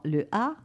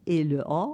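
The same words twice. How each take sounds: First: "A" as a bright front a, as in patte. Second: "A" as a deep back â, as in pâte. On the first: Parisian distinction of the two A sounds, front a. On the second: Parisian distinction of the two A sounds, back â. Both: Shown as a demonstration.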